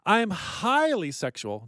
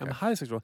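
First: One word is given strong extra emphasis. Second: No word is given special extra emphasis. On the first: The speaker calls it wrong. "I just emphasize that word" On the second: The speaker calls it right. "That's not capitalized"

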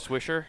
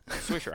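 First: The word ends with a strong, hard R sound. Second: The word ends softly without a hard R. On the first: The speaker calls it wrong. "You added a hard ER the first time" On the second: The speaker calls it right. "I love how you said it correctly the second time"

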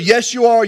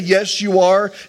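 First: The phrase is said very fast, words run together. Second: The phrase is said at a normal pace.

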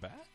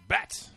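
First: It is said as an unsure question. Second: It is said as a loud exclamation.

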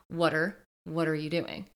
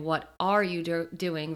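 First: The words are blended together into one stream. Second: Each word is said clearly and separately. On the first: "the connected speech" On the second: "if you can't hear the difference"

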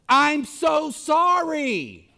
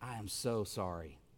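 First: It is said in a harsh, unkind tone. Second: It is said in a gentle, soft tone.

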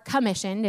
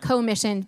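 First: The first syllable is reduced and weak. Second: The first syllable is a full 'co' sound. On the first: "if you want to say it the right way" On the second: "I like it commissioned because we're co-together"

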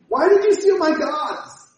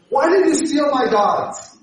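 First: It is said in a whiny childlike voice. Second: It is said in a plain voice.

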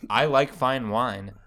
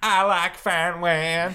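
First: The I vowels are full glides, general American. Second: The I vowels are flattened, in a southern accent. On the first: "A sentence like" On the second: "might sound like"

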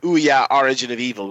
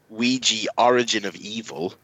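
First: The first word is said without a j sound. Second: The first word is said with a j sound.

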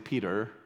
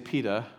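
First: The final R sound is clearly pronounced. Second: The final R sound is dropped. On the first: This is how the speaker talks after moving. "I definitely enunciate my R's a little more. now I say Peter" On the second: This is how the speaker talked before moving. "I used to say Peter"

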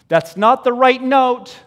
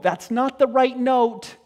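First: It is shouted loudly from far away. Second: It is said softly in a gentle, humble tone.

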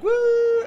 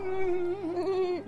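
First: Robin's woo is loud and excited. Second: Trent's woo is quiet and sheepish.

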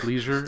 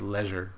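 First: The word has a Midwestern American pronunciation. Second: The word has a snooty Yankee pronunciation. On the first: The speaker calls it right. "I'm Midwestern. It's leisure" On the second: The speaker calls it wrong. "snooty, like, Yankees say leisure"

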